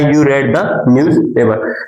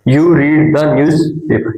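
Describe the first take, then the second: First: The word read rhymes with bed. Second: The word read rhymes with need. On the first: The speaker calls it right. "इसको रेड बनाए" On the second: The speaker calls it wrong. "Sorry ये रीड है"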